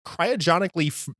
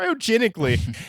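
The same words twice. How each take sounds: First: Cryogenically tripped over and cut off; stumbled word. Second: Cryogenically said again, high and careful; retry cryogenically carefully. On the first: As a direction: trip on cryogenically and stop. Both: Real, not acted. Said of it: "it's early".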